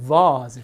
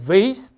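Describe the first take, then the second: First: It is said in a British accent. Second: It is said in an American accent. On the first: "뒤에 게 영국식이죠" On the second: "앞에 게 미국식이고"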